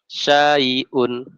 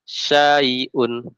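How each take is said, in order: No difference in how they are said.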